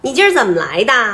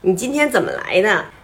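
First: It is said with Beijing dialect erhua. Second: It is said in standard Mandarin.

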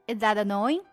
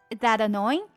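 No difference in how they are said.

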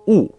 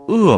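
First: The word is pronounced wù, with a w sound. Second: The word is pronounced è, with no w sound. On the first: It means to dislike or hate. "当他读四声的时候，就是讨厌、厌恶的意思。所以在这儿" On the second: It means wicked or evil. "这个恶字不是读恶吗？恶人，凶恶"

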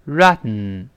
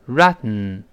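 First: The t is held and released through the nose. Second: The t is held and released through the nose.

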